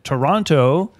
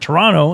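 First: The name is said the standard, outsider way. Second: The name is said the local, hometown way.

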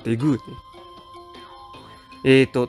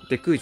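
First: The middle consonant is a voiced g. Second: The middle consonant is a voiceless k. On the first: The speaker calls it right. "デクーじゃなくてデグー" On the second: The speaker calls it wrong. "じゃなくて"

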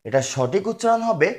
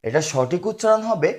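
No difference in how they are said.

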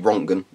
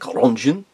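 First: The name is pronounced in a German style, with harsh consonants. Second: The name is pronounced in a French style. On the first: The speaker calls it right. "because he was German, and that would be harsh consonants" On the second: The speaker calls it wrong. "Some people like to pronounce it as though he was French"

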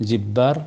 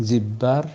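Both takes have the same delivery.

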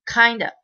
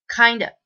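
No difference in how they are said.

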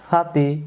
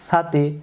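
Both takes have the same delivery.

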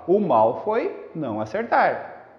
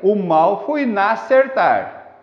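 First: A new impulse starts the A of acertar. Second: The vowels of não and acertar merge together. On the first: The speaker calls it right. "você tem que ter um outro impulso para pronunciar o A" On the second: The speaker calls it wrong. "Você não fala o mal foi nacertar"

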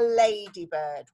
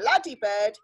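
First: The first vowel is long, as in 'day'. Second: The first vowel is short, as in 'cat'. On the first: The speaker calls it right. "it's a ladybird" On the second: The speaker calls it wrong. "there's no such thing as a ladybird"

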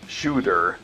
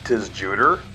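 First: The name starts without a separate 'tiss' syllable. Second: The name starts with a separate 'tiss' syllable. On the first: The speaker calls it right. "The band's name is actually pronounced like Tsjuder" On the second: The speaker calls it wrong. "Nah, I'm just joking"

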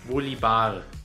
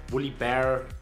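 First: The name is pronounced the German way. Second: The name is pronounced the English way.

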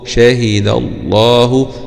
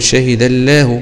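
First: The L in Allah is thick and heavy. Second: The L in Allah is thin and light. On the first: The speaker calls it right. "بنفخم اللام في اسم الجلال ... شهد الله هكذا" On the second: The speaker calls it wrong. "مش معقولة هنقول شهد الله، ما ينفعش"

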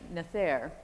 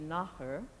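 First: The word is pronounced as English spelling suggests. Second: The word is pronounced with its Gaelic sounds. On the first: The speaker calls it wrong. "they pronounce it on screen as Nathair, as it would be in English" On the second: The speaker calls it right. "It should be Nahr"

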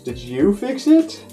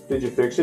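First: It is asked in a surprised tone. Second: It is asked in a matter-of-fact tone.

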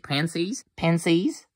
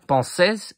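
First: It is said like the English word pansies. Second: It is said like the French word pensées.

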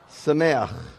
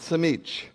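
First: It ends with 'ah' and a throaty sound. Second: It ends with a short 'itch' sound. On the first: The speaker calls it right. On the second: The speaker calls it wrong. "Not Samich"

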